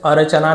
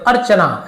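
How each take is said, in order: First: अर्चना split as a-ra-cha-naa, र given its own vowel; अर्चना read letter by letter, unjoined; wrong split reading. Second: अर्चना said quickly as one word, र closed onto च; brisk, joined-up अर्चना; quick joined reading. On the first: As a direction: sound every letter of अर्चना separately. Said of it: "ऐसे अर्चना नहीं पढ़ते". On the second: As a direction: run अर्चना together as ar-cha-naa. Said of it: "लेकिन जल्दी पढ़ते". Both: Shown as a demonstration.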